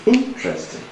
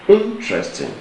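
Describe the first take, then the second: First: The stress is on the first syllable. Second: The same.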